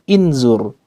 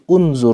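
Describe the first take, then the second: First: The word begins with an i vowel. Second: The word begins with a u vowel. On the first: The speaker calls it wrong. "bukan inzur" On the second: The speaker calls it right. "Jadi unzur"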